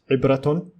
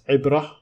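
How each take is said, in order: First: The word ends with a full -tun syllable. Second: The word ends softly with an h sound. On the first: The speaker carries on without stopping. The speaker calls it wrong. "and not ibratun" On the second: The speaker stops at the end of the word. The speaker calls it right. "how I pronounced the ta marbuta as ibrah"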